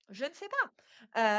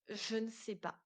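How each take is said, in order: First: Slow, louder repeat of the imagined answer; réponse appuyée. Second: Softly voiced typical answer; réponse hésitante imitée. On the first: Acted. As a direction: draw the admission out slowly and firmly. (réponse répétée lentement, plus fort) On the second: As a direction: give the imagined answer in a small, quiet voice. Imagined typical answer, given twice. (petite voix basse, réponse imitée)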